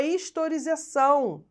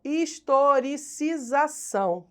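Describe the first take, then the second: First: Said in the usual way. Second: Historicização sounded out slowly, syllable by syllable; slow, careful enunciation. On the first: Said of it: "E, perdão". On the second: Real, not acted. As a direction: say "historicização" slowly to get every syllable right. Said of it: "tem que falar devagar".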